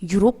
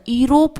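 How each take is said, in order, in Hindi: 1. इस शब्द की शुरुआत य ध्वनि से होती है। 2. इस शब्द की शुरुआत एक सादी स्वर ध्वनि से होती है। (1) "इसको हम य पढ़ते हैं" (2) "अगर ये वोवेल साउंड आता"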